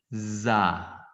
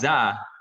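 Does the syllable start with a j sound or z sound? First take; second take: z sound; j sound. First: The syllable starts with a z sound. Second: The syllable starts with a j sound. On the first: The speaker calls it right. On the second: The speaker calls it wrong. "Jadi bukan ja"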